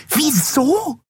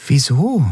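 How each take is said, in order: First: Viel höher und spitz gefragtes Wieso?; schrill. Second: Said in the usual way. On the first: Acted. (schrilles, hohes Wieso?) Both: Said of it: "wiederholte die Yadi schrill".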